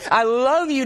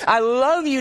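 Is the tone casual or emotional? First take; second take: emotional; emotional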